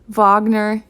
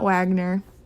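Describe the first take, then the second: First: The name begins with a V sound. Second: The name begins with a W sound. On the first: The speaker calls it right. "the W is pronounced like a V" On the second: The speaker calls it wrong. "It's not Wagner"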